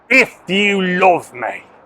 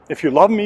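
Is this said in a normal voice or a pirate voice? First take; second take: pirate; normal. First: It is said in a growling pirate voice. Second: It is said in a plain, ordinary voice. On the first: "like Jesus was somehow a pirate. Arr" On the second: "I remember reading that"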